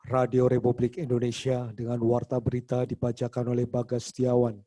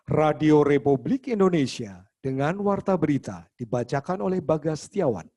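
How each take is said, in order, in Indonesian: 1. Dibacakan dengan nada datar dan monoton. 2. Dibacakan dengan intonasi yang bervariasi dan hidup. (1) "bukan berarti" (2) "itu pun sudah pakai intonasi"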